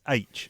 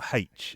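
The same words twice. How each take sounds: First: It begins with a vowel, no h sound. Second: It begins with an h sound. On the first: The speaker calls it right. "There's no H in front of it. It's H" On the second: The speaker calls it wrong. "not H"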